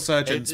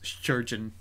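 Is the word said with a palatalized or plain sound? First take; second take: plain; palatalized. First: The word is said without heavy palatalization. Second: The word is said with heavy palatalization. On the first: "It's still surgeons" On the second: "pronounce it with a heavy palate"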